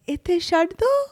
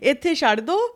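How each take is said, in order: First: The phrase is said more softly. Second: The phrase is said with normal force. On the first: "you just say it, like, softer" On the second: "instead of saying"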